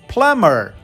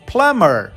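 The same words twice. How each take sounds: First: The B sound is silent in the middle. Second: The B sound is silent in the middle.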